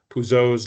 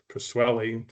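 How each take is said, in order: First: The name is said with a French pronunciation. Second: The name is said with an American pronunciation. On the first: "depending on whether you use French or American pronunciation" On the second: "depending on whether you use French or American pronunciation"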